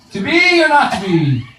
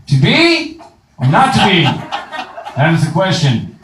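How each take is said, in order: First: High, theatrical mock Shakespeare; hammed-up Hamlet. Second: Mock grand Shakespeare recital; Shakespeare line declaimed to mock acting lessons; hammed-up Hamlet. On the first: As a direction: soar up on "be" like a ham actor. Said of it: "I'd go". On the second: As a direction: overact the soliloquy like a ham. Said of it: "learn how to act".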